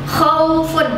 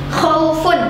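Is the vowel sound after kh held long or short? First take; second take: short; short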